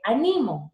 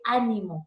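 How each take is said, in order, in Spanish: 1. El acento está en la sílaba del medio. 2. El acento está en la primera sílaba. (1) "es una grave" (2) "una esdrújula"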